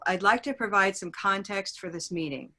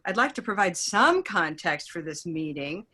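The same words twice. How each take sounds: First: It is said in a plain, neutral tone. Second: It is said in a mocking, sarcastic tone. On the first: Nothing extra is implied about the meeting. "so we can also get neutral. Neutral? Pretty neutral" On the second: The meeting is being belittled. "suddenly I sound, like I'm denigrating the meeting, and I'm a little sarcastic"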